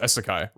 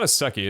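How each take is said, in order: First: The word ends with a 'kai' sound. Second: The word ends with a 'kee' sound. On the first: The speaker calls it right. "it's Isekai" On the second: The speaker calls it wrong. "It's not Iseki"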